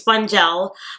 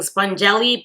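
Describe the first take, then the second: First: The name ends on the 'l' sound. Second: The name ends with an extra 'ee' sound. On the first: The speaker calls it right. "but I think it's spongel" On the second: The speaker calls it wrong. "I think before I was saying spongelly"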